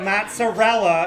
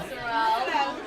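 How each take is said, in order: First: "mozzarella" in full, MOT-suh-RELL-uh; common American pronunciation. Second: "mozzarella" said as moot-za-DELL; Italian-American pronunciation. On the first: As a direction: say "mozzarella" with the final A. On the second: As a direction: say "mozzarella" as mootzadell, no final A. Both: Shown as a demonstration. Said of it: "It's not mozzarella".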